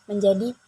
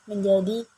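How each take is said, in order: The two takes are said the same way.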